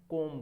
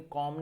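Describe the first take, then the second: First: कोम said with round "oh"; correct vowel. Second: कॉम said with open "aw"; wrong vowel. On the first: Teacher giving the right form, कोम as round "kohm". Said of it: "कोम बोलना है". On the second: Teacher telling students what to avoid, कॉम as open "kawm". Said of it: "लेकिन कॉम नहीं बोलना". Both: Shown as a demonstration.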